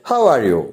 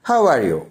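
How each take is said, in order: The two takes are said the same way.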